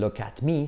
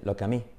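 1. La t de 'at' se pronuncia claramente. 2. La t de 'at' se omite. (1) "No dicen look at me" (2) "los nativos esa T además la omiten"

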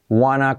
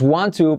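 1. Las dos palabras se unen en una forma reducida. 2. Las dos palabras se dicen completas.

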